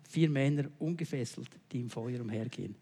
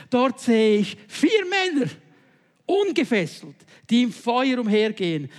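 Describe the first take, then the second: First: Low, soft, reflective reread; quiet rereading. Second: King calling out. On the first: Shown as a demonstration. Preacher quietly rereads verse twenty-five to the congregation, soft. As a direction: let it sink in, much softer. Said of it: "noch einmal Vers fünfundzwanzig". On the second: Acted. King cries to his advisers about four men in the fire, loud and awed. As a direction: proclaim it in awe as the king. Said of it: "rief Nebukadnezar".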